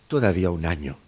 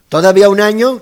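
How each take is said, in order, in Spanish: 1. Suena como una petición humilde y suplicante. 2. Suena como una pregunta indignada y reacia. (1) "¿No es una súplica?" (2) "Que no está dispuesto"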